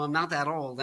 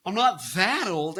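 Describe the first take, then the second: First: Said in the usual way. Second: Put-on "that old" drawn out with swooping pitch; exaggerated stress on THAT OLD. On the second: Host protests about knowing Andy Dick, "that old" drawn out. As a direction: stretch and swoop through "that old".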